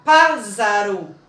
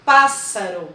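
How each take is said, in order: First: Pássaro said wrongly with a buzzing Z in the middle, pázaro; teacher demonstrating a mispronunciation; wrong Z sound. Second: Pássaro said correctly with a sharp hissing S, not a Z; teacher modelling the correct pronunciation; correct S sound. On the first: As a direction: show the mistake and voice the S in pássaro as Z. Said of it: "E não é pássaro que a gente fala". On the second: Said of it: "Nós falamos pássaro". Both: Shown as a demonstration.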